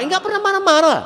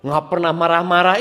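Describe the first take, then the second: First: Much higher, louder emphatic repeat. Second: Said in the usual way. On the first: Shown as a demonstration. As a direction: leap up high to drive the point home. Preacher repeats phrase for emphasis.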